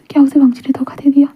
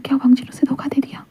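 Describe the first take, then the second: First: Said in the usual way. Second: Soft, barely voiced question to himself; a soft inner whisper of betrayal; hushed stunned thought. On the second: A narrator's reading. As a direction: whisper the doubt as if afraid to say it aloud.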